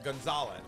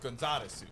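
First: The name is said plainly, ending on a z. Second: The name is said Japanese-style, adding a final su.

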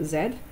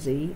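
First: The letter is said the non-American way. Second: The letter is said the American way.

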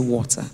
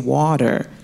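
First: It is said in a non-American accent. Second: It is said in an American accent. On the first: This is the speaker's natural way of speaking. "than it is to say" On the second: It takes effort to put on this accent. "It takes so much more effort for me to say water"

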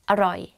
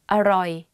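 First: The word is said quickly. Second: The word is said slowly and carefully.

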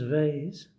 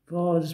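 First: It is said with an American pronunciation. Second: It is said with a British pronunciation. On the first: The speaker calls it wrong. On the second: The speaker calls it right.

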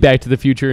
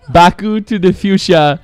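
First: It is said with plain English pronunciation. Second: It is said with Japanese-style pronunciation.

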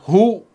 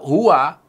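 First: The word is said as one short syllable. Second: The word is said with two syllables. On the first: It clearly refers to God. "mensukunkan huruf wa-nya itu. Sehingga dibaca hu" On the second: It is an ordinary third-person pronoun. "kata huwa"

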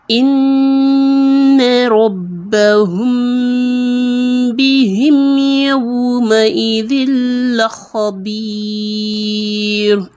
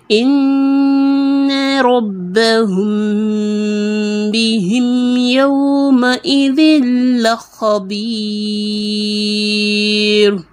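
The two takes are said the same way.

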